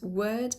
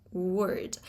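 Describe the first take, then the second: First: "word" with the R silent, long vowel; non-rhotic. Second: "word" with a strong sounded R; rhotic R. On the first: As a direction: leave out the R in "word". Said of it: "you don't pronounce the R". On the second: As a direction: pronounce the R fully in "word". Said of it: "and not word". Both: Shown as a demonstration.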